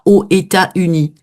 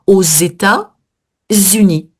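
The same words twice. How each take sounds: First: États and Unis are said without a linking z. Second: A z sound links États to Unis. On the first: The speaker calls it wrong. "On ne dit pas" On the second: The speaker calls it right. "première liaison derrière le O"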